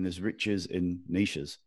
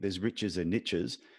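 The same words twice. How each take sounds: First: Niches is said not rhyming with riches. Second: Niches is said to rhyme with riches. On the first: The speaker calls it wrong. "makes no sense at all" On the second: The speaker calls it right. "sounds so much better than"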